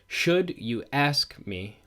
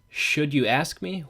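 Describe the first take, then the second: First: Every stressed syllable is hit hard in strict rhythm. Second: It is read with natural, unexaggerated stress.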